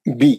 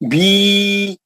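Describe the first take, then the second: First: The vowel is short, held for one count. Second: The vowel is stretched, held for two counts. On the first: The speaker calls it right. "बी है ना, खींचेंगे नहीं आप।" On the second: The speaker calls it wrong. "बी बोले तो गलत हो जाता है ना, दो मकदार हो जाते, दो काउंट हो जाते"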